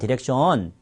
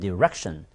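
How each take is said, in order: First: The stress falls on a syllable other than the second. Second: The stress falls on the second syllable. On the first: The speaker calls it wrong. "한국 사람 디렉션, 디렉션 여기로 올리죠? 아닙니다" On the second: The speaker calls it right. "렉가 셉니다"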